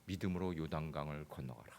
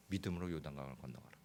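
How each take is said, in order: First: Said in the usual way. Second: 믿음으로 요단강을 건너가라 breathed as a whisper. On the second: Shown as a demonstration. God speaks softly in the pastor's heart, whispered. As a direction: let God's command come as a whisper.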